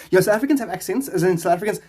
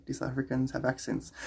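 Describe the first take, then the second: First: High, excited exclamation; emphatic answer. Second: Said in the usual way. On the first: Real, not acted.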